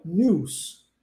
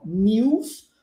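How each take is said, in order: First: "news" as nooz, no Y after the N; news without glide. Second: "news" as nyooz, with a Y glide after N. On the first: Teacher showing the second pronunciation, "news" as nooz. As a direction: go straight from N to oo in "news". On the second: Teacher showing the first of two pronunciations, "news" as nyooz. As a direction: slip a Y sound into "news". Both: Shown as a demonstration. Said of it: "existem duas pronúncias".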